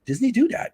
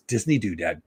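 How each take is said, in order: First: "Disney Doodad" jumping much higher, rising at the end; delighted. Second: Said in the usual way. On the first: Real, not acted. Pleased with his new chat name, high rising repeat. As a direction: sell "Disney Doodad" as a bright new find.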